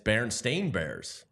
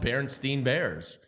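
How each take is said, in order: First: The last syllable of the name rhymes with 'lane'. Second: The last syllable of the name rhymes with 'line'. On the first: This is the actual name. The speaker calls it right. "and it's" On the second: This is how it became popularly known. The speaker calls it wrong. "It took off as"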